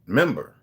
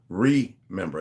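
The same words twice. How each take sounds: First: "Member" as one set-apart word, stress on MEM; MEMBER without RE. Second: "remember" with RE drawn out and set apart; RE split off. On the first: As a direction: land firmly on MEM in "Member", no RE before it. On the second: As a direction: break "remember" after a slow, separate RE. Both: Shown as a demonstration. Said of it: "not remember".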